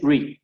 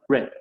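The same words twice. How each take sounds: First: The vowel sounds like 'ee'. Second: The vowel sounds like 'eh'. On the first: The speaker calls it right. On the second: The speaker calls it wrong. "nunca va a ser re"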